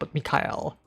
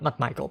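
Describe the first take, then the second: First: The name is said as Mikhail. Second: The name is said like English Michael. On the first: The speaker calls it right. "That's that's how they pronounce it" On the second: The speaker calls it wrong.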